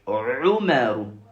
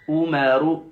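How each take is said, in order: First: It starts with a deep throat sound. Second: It starts with a plain vowel, no throat sound. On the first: The speaker calls it right. "au niveau de la gorge" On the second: The speaker calls it wrong. "L'erreur se trouve au niveau du ou, le aïn"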